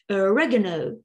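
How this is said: It is said in an American English accent. "and American English"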